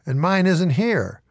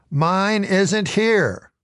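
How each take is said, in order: First: Said in the usual way. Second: Slow, crushed repeat of mine isn't here; slow, dismayed. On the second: A narrator's reading. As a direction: let "Mine isn't here" sink in slowly, dejected.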